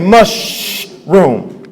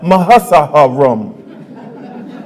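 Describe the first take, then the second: First: The s and h blend into one sound. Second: The s and h are sounded separately. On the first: The speaker calls it right. "You say mushroom" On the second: The speaker calls it wrong. "you don't say"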